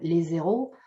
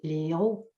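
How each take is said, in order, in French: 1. Un son z relie les deux mots. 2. Aucun son z ne relie les deux mots.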